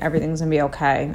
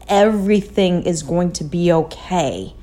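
First: It is said quickly, without feeling. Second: It is said slowly, with feeling.

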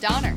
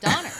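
First: The pitch stays flat at the end. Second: The pitch moves strongly at the end. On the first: The speaker calls it right. "you did better than John and I" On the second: The speaker calls it wrong. "Actually, I put too much on there"

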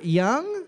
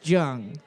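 First: The name gets a non-English pronunciation. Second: The name gets a plain English pronunciation.

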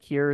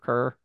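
First: The vowel sounds like the one in 'beer'. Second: The vowel sounds like the one in 'her'. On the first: The speaker doesn't know the name. The speaker calls it wrong. "have you ever gotten Kier instead of Kerr?" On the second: The speaker knows the name. The speaker calls it right. "I still called you Kerr"

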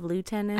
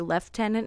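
First: The word is pronounced a non-British way. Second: The word is pronounced the British way. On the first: "instead of lieutenant" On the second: "in England they say lieutenant"

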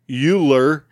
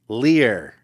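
First: The middle is said 'nuke-yuh-ler', with an extra syllable. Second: The middle is said 'nuke-lear', without an extra syllable. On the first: The speaker calls it wrong. "Not nuke-uler" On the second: The speaker calls it right.

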